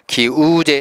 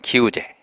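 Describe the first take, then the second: First: The middle vowel is long. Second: The middle vowel is short. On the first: The speaker calls it wrong. "기우제 하지 않고" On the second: The speaker calls it right. "그냥 기우제"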